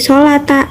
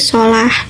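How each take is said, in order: First: The word ends on a final a vowel. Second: The word ends on a final h sound. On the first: The speaker calls it wrong. "tidak menjadi solata" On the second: The speaker calls it right. "tapi menjadi solah"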